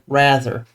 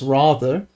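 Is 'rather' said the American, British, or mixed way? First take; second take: American; British. First: It sounds fully American. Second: It sounds fully British. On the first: "rather than rather" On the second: "full British, which is rather"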